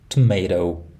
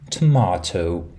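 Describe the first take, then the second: First: It is said in an American accent. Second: It is said in a British accent. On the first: "in the States as" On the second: "Britain will be pronounced as"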